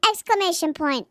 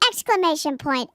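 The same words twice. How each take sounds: Both takes have the same delivery.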